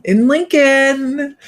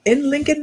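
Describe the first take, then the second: First: Drawn out high and slow; playful drawn-out place name; sing-song. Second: Said in the usual way. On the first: Pretend. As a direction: stretch in Lincoln out, high and sung. Playful repeat of town name.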